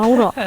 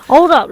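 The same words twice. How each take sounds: First: Said in the usual way. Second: Firm, raised call to wait; louder hold up. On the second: Real, not acted. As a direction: call it out louder to stop them. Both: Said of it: "repeats it louder".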